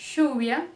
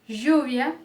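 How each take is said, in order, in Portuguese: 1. O ll é pronunciado como um som de sh. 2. O ll é pronunciado como um som de zh. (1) "o som de X, do nosso X" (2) "ele também pode ter o som de J"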